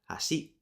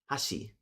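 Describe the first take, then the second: First: The first syllable is low, then pitch rises. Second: The first syllable is high, then pitch drops. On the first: "or unaccented" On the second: "which has a tamadaka or head high"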